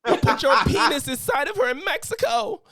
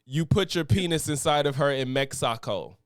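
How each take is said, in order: First: It is read in her crying voice. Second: It is read in a plain voice.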